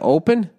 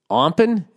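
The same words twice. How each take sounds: First: No m sound comes before the p. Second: An m sound comes before the p. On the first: The speaker calls it right. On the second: The speaker calls it wrong.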